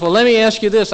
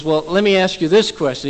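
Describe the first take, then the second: First: Higher, louder exasperated retelling; very frustrated. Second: Mildly exasperated retold question; a little frustrated. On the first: Retold or imitated. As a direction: push the question out in exasperation. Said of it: "Very frustrated at this point". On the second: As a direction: try asking with slight impatience. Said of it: "He's a little frustrated at this point".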